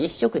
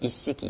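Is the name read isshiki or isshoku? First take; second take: isshoku; isshiki. First: The name is read as isshoku. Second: The name is read as isshiki. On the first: The speaker calls it wrong. "これ一色じゃなくて" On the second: The speaker calls it right. "一式って読みますけどもね"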